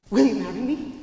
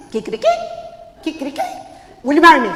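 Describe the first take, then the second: First: Lightly voiced tomcat, lowered pitch; tomcat suitor. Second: Loud, excited rooster proposal; hyper rooster suitor. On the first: Señor Gato proposing to Martina, tomcat suitor voice. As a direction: propose in a hint of a low cat voice. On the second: Acted. Señor Gallo proposing to Martina, hyper rooster voice. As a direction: blurt the proposal at full volume.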